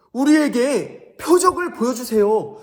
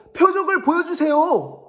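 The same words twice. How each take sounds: First: Higher, louder, slow begging; pleading Pharisee. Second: Much higher and louder, nagging repeat; whiny Pharisee. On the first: Pharisees demanding a sign from Jesus, slow pleading. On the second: Pharisees pestering Jesus for a sign, whiny. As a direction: whine the demand again like a pest. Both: Acted. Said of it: "바리새인들과 서기관들이 예수님께 말했어요".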